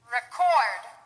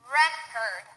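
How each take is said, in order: First: The stress is on the second syllable. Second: The stress is on the first syllable. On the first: It is used as a verb. "The second one will be stressed on the second syllable, that's the verb" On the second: It is used as a noun. "The first one will be stressed on the first syllable, that's the noun"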